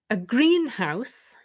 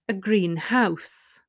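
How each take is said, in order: First: The stress falls on green. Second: The stress falls on house.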